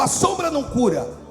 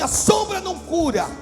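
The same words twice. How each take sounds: First: It is said in a plain, calm way. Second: It is said with more fervor and energy.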